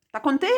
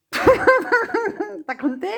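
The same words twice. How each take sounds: First: Said in the usual way. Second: Laughed through, slow and much higher; laughing repeat. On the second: Shown as a demonstration. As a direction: let the laugh drag the question out slowly. (en riant, lentement et plus aigu)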